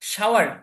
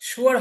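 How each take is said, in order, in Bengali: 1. প্রথম স্বরধ্বনিটি 'ow'-এর মতো শোনায়। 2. প্রথম স্বরধ্বনিটি 'oo'-এর মতো শোনায়।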